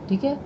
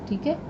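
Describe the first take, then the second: Both takes have the same delivery.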